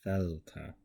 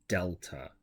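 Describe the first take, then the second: First: The first sound is a soft sound. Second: The first sound is a hard D. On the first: The speaker calls it right. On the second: The speaker calls it wrong.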